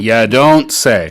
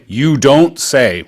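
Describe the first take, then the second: First: The first word is reduced to 'ya'. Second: The first word is a full 'you'. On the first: The speaker calls it right. "We say ya" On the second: The speaker calls it wrong. "we usually don't say you don't say"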